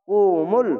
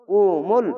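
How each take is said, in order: The two takes are said the same way.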